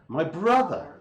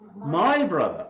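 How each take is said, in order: First: The stress falls on the word brother. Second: The stress falls on the word my. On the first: It is my brother, not my sister. "if it's my brother and not my sister" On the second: It is my brother, not yours. "it's not your brother, but it's my brother"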